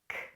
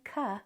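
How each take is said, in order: First: A bare puff of air with no vowel. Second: The k is followed by a short vowel. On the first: The speaker calls it right. "It's just air though" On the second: The speaker calls it wrong. "don't say ka"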